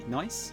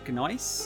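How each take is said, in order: First: The word begins without any G sound. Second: The word begins with a sounded G.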